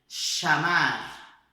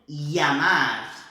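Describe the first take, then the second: First: It begins with a sh sound. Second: It begins with a strong y sound. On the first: This is how it is said in Argentina. "A Argentina é som de C H do português" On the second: This is how some countries say it. "Alguns países fazem o som de I mais marcante"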